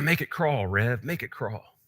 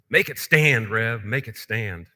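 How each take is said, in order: First: It is said in a small, quiet voice. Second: It is said a little louder and bolder.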